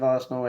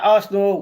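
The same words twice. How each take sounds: First: Said in the usual way. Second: "Arsenal" said as ars-nawl, two syllables; altered Arsenal. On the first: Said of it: "instead of Arsenal". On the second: Shown as a demonstration. Streamer reading a viewer's question, altered "Arsenal" as ars-nawl. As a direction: say "Arsenal" with a rounded "nawl" ending. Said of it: "why do people keep saying like this".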